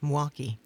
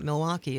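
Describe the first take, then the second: First: The first syllable of the name is dropped. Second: All syllables of the name are pronounced. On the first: The speaker calls it right. "It's Mwaukee" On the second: The speaker calls it wrong. "Milwaukee is not Milwaukee"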